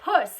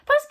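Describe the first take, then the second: First: It is loud and shouted in chest voice. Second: It is high, light and airy in head voice. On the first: "I'm going to shout to try and get rid of it. Um, and that's going to be my chest voice" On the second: "is my head voice. So it's very sweet and quite um, light and airy"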